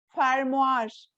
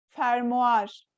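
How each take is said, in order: Both takes have the same delivery.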